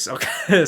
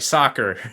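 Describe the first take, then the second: First: It is said with an Australian accent. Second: It is said with an American accent. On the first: "when people in Australia call it soccer" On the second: "American is like soccer"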